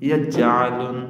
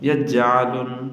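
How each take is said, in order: The two takes are said the same way.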